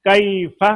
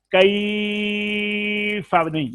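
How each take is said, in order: First: कैफा with a short ai; short correct take. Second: कैफा dragged out slowly and high; too long, wrong. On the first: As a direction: say कैफा crisp, not stretched. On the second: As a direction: overstretch कैफा as the mistake. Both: Shown as a demonstration. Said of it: "लंबा इतना नहीं करना".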